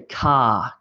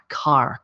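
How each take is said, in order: First: The final R sound is dropped. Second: The final R sound is pronounced. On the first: "In Australia, we say car ... and we sort of miss the R" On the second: "Whereas Americans tend to go R, R, like I have a red car"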